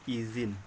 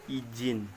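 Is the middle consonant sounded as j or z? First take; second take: z; j. First: The middle consonant is a z sound. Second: The middle consonant is a j sound. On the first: The speaker calls it right. "pelafalan bakunya itu pakai Z" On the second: The speaker calls it wrong. "pelafalan tidak baku, izin, menggunakan J"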